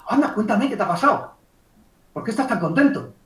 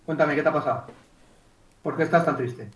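First: Lively, interested reply; matching happy emotion. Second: Lower, subdued question; mismatched downcast reply. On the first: Coach asking a happy client for news, mildly excited. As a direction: share a touch of the client's joy. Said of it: "Estoy igualando la emoción". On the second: Coach wrongly answering a happy client, downcast. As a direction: answer joy in a sunken, sad tone. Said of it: "Ya, pero la emoción no". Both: Acted.

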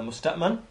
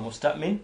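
First: "musta'man" ending in -man; alternative pronunciation. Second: "musta'min" ending in -min; alternative pronunciation. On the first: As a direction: say "musta'man" with last syllable as "man". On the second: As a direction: say "musta'min" with last syllable as "min". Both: Shown as a demonstration. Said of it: "or musta'min".

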